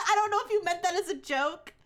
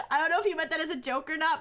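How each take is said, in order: First: Laughing. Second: Said in the usual way. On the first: Real, not acted. Repeats sentence after laughing.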